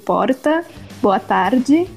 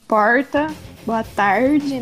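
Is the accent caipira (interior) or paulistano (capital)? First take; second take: paulistano; caipira. First: Paulistano capital accent, with a tapped R. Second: Caipira accent, with a drawn-out retroflex R.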